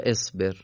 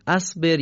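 First: اصبر begun with "e": esber; kasra on alef. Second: اصبر begun with "a": asber; fatha on alef. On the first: Teacher asking what to read, اصبر said "esber". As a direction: open اصبر on a short "e" sound. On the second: Teacher asking what to read, اصبر said "asber". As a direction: open اصبر on a short "a" sound. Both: Shown as a demonstration. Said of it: "چی بخونیم؟".

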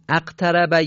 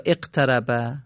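First: اقتربه begun with "a": aqtaraba; fatha on alef. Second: اقتربه begun with "e": eqtaraba; kasra on alef. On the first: Teacher quizzing students on the rule, اقتربه said "aqtaraba". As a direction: open اقتربه on a short "a" sound. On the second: Teacher quizzing students on the rule, اقتربه said "eqtaraba". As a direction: open اقتربه on a short "e" sound. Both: Shown as a demonstration.

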